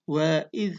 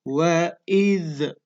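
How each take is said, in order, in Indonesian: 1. Konsonan akhir ditahan halus tanpa dipantulkan. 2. Konsonan akhir dilepas dengan gema memantul.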